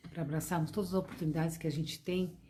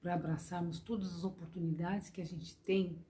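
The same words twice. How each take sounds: The two takes are said the same way.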